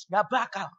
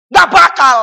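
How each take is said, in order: First: Much softer dismissal; dismissive refusal. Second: Loud, high dismissal; emphatic refusal. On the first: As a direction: drop the voice right down to dismiss it. Same rebuttal, said low. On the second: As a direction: shout it down forcefully. Loud rebuttal of quoted bargain. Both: Real, not acted.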